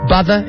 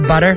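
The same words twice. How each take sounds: First: A sound is distorted, like a speech impediment. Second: All sounds are said in the ordinary way. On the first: The speaker calls it wrong. "someone with that speech impediment ... you say butter instead of" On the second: The speaker calls it right. "instead of butter"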